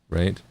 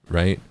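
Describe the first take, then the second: The two takes are said the same way.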